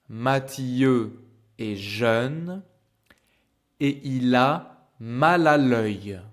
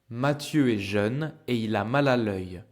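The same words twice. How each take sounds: First: The sentence is spoken slowly. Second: The sentence is spoken at normal speed. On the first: "I will speak slow in the beginning" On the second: "Normal speed for you to practice"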